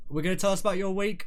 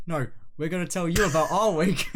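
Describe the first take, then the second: First: Said in the usual way. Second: "you" hit harder as the fix; stress on you. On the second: Real, not acted. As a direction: correct it, leaning on "you".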